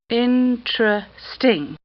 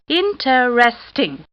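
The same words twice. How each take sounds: First: The word is said with three syllables. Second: The word is said with four syllables. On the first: "Three syllables" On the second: "Four syllables"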